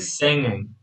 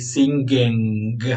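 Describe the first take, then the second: First: Only the ng nasal sound, no g. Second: A hard g follows the ng sound. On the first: The speaker calls it right. "Say singing. Okay, just this velar nasal" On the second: The speaker calls it wrong. "you don't say singing"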